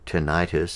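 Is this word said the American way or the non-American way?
American. The word is said in an American way.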